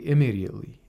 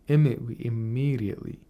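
First: The m sound in the middle is short. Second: The m sound in the middle is held long. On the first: The speaker calls it wrong. "We don't say immediately" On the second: The speaker calls it right. "It's a geminate"

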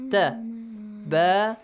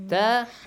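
First: It is said slowly, each vowel pronounced separately. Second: It is said fast, the sounds joined together.

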